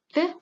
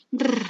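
First: "re" with one light tap; brief tapped "re", no trill; soft Spanish R. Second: "r" trilled several times; sustained rolled "r"; strong Spanish R. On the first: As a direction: let the tongue touch once for "re". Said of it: "lengua vibra solo una vez". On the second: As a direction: vibrate the tongue tip on "r". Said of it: "R fuerte vibra más veces". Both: Shown as a demonstration.

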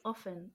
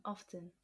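First: "often" without a T, as OFF-en; silent T. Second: "often" with the T sounded, as OF-ten. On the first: Friend testing the word for herself, often with silent T. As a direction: try out "often" as OFF-en. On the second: Friend testing the other way, softly, often with sounded T. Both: Shown as a demonstration. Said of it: "Wait, often, often".

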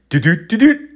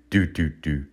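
First: High, loud, quick heartbeat noise; racing heartbeat. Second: Low, soft, slowed heartbeat noise; slowing heartbeat. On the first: Comic imitating his heart speeding up, high racing thumps. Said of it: "my heart trying to speed up". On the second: Comic imitating weed slowing his heart, low sluggish thumps. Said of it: "the weed is slowing it down". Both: Retold or imitated.

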